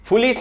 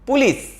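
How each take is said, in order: First: The word begins with an f sound. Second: The word begins with a p sound. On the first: The speaker calls it wrong. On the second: The speaker calls it right.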